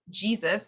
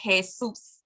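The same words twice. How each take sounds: First: The word begins with a J sound. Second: The word begins with an H sound. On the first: "the word Jesus" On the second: "in Spanish is Jesus"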